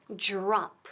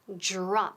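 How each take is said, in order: Both takes have the same delivery.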